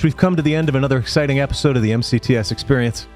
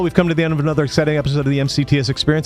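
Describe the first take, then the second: First: It is said at a normal, relaxed pace. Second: It is rushed very fast, like a disclaimer.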